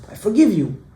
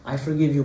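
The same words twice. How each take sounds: First: "I forgive you" lifted high, then falling; emphatic repeat. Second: Said in the usual way. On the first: Retold or imitated. Woman forgiving the crying man, said emphatically. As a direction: stress "forgive" higher and firmer.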